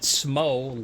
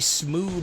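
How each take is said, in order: First: The name rhymes with dough. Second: The name rhymes with through. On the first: "like dough" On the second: "because he's through"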